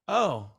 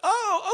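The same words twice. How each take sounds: First: The 'oh' sounds hurt and disappointed. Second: The 'oh' sounds casual and accepting. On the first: The cancellation feels like a personal loss. The speaker calls it right. "your tone of voice to be like somebody just broke up with you" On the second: The cancellation is simply accepted. The speaker calls it wrong. "don't do that"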